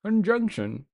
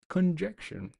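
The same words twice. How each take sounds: First: Higher-pitched mock British accent; playful put-on British accent; fancy British accent. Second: Said in the usual way. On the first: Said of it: "say it in, like, a fancy British accent".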